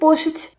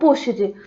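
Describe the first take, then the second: First: The ending is a plain T sound. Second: The ending is said as written, 'ed'. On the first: The speaker calls it right. "vai ter um som de T" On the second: The speaker calls it wrong. "a nossa tendência natural mesmo é querer pronunciar algo como"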